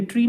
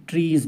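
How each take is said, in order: First: ट्री said with no final s, the form not to use; just ट्री, short and bare, as the wrong plural; ट्री with no s at the end; singular ट्री. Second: ट्रीज said with a clear final z sound; ट्रीज with the s sound added at the end; plural ट्रीज. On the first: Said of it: "ट्री नहीं बोलेंगे". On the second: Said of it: "ट्रीज बोलेंगे". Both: Shown as a demonstration.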